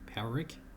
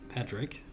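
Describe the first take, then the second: First: No consonant is pronounced in the middle. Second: A consonant is pronounced in the middle. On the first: The speaker calls it right. "The D is apparently silent in Irish, so it's Pa-rick" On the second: The speaker calls it wrong. "the character that I've been calling here Patrick"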